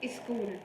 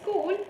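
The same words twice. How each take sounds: First: It is said with mother-tongue influence. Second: It is said the standard English way. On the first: The speaker calls it wrong. "the person said school. This is the mother tongue influence" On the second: The speaker calls it right. "instead of saying school"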